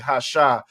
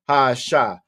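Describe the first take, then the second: First: The article and noun run together as one. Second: The article and noun are said apart. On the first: The speaker calls it wrong. "You might blend it all together and just say hasha" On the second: The speaker calls it right. "if we don't have that separator on there"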